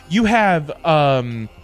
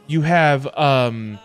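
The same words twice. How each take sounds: The two takes are said the same way.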